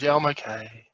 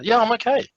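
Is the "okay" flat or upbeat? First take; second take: flat; upbeat. First: The final "okay" sounds flat and unenthusiastic. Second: The final "okay" sounds lively and upbeat.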